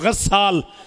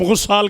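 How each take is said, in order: First: The first vowel is an open 'a' sound. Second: The first vowel is a rounded 'u' sound. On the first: The speaker calls it right. "कव्वाल के वज़न पे" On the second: The speaker calls it wrong. "जिसे तुम गुस्साल कहते हो"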